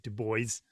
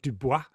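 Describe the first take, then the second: First: The name is pronounced in a non-French way. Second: The name is pronounced in a French way. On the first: The speaker calls it right. "I'm told his name is Du Bois" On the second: The speaker calls it wrong. "not Dubois, as I would would want to pronounce it in the French"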